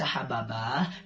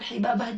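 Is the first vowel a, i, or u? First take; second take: a; i. First: The first vowel is a. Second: The first vowel is i. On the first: "bisa dibaca Hababah" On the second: "bisa dibaca bahkan Hibabah juga"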